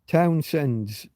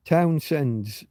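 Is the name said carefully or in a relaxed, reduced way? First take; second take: careful; careful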